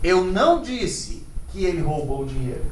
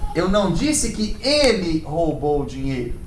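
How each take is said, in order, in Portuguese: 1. A palavra disse recebe ênfase. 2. A palavra ele recebe ênfase. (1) "Eu posso não ter dito, mas e se eu escrevi que ele roubou?" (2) "Quem foi que roubou?"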